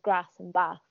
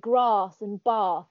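First: It is said in a northern English accent. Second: It is said in a southern English accent. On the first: "instead of grass and bath, so I'm northern" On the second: "friends down south that say grass and bath"

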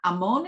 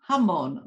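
First: The name begins with a vowel, no h sound. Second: The name begins with an h sound. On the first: The speaker calls it wrong. "it's actually not Amon" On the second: The speaker calls it right. "it's Hamon"

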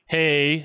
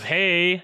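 First: It is said in a butch, straight voice. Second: It is said in a camp, flamboyant voice.

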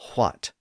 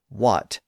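First: It starts with a breathy h before w. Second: It starts with a plain w, no h. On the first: This is the older pronunciation. "and not what" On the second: This is the usual modern pronunciation. "Most of us say what"

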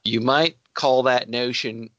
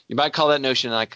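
First: It is said in the speaker's normal accent. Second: It is said in a Cockney accent.

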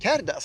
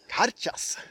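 First: The middle consonant is a plain d sound. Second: The middle consonant is a ch sound. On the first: The speaker calls it wrong. "Men jag skulle beställa en Kerdas här" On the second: The speaker calls it right. "Men det är Karchas"

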